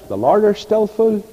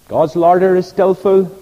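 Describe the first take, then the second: First: Put-on high-pitched Portavogie accent. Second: Said in the usual way. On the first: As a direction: imitate a friend's Portavogie accent. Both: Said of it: "in his nice Portavogie accent".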